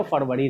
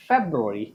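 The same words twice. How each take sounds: First: फरवरी as "FUR-va-ri"; Hindi pronunciation. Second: फरवरी low and soft, "FEB-ru-ri"; English pronunciation. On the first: Teacher forbidding it in English, Hindi "fur-va-ri". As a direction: say फरवरी with "fur", not "feb". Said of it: "नहीं बोल सकते हैं". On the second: Teacher giving correct answer, low "FEB-ru-ri". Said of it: "आपको क्या बोलना होगा". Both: Shown as a demonstration.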